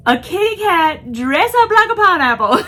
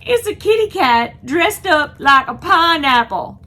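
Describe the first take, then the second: First: Laughing through it, higher and louder. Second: Delighted, higher and louder exclaim; excited, higher and louder. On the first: Repeating the pineapple cat line to viewers, laughing hard. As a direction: barely get it out through laughter. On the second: To viewers about the pineapple cat costume, thrilled. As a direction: announce it with thrilled disbelief. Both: Real, not acted.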